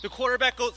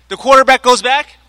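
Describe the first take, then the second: First: Much softer, trailing off unheard; said too far from the mic; nearly inaudible first take; too quiet. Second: Higher, louder restart so all can hear; louder, higher retake after being unheard; louder repeat. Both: Real, not acted. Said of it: "sorry, you can't hear me".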